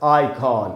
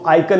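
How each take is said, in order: First: The second syllable has a full 'on' vowel. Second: The second syllable has a weak 'un' vowel. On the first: The speaker calls it right. "आ पर stress है, आइकॉन, ऐसे करके पढ़ेंगे" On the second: The speaker calls it wrong. "इसको आइकन नहीं बोलना है"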